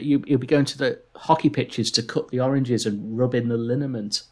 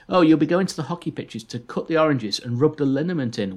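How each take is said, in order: First: It is said in his plain own voice. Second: It is said in a posh Major-like voice.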